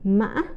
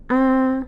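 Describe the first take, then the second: First: The pitch rises high with a break midway. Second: The pitch stays flat at mid level. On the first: "tumbling or high broken tone" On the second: "the flat or the mid-level tone"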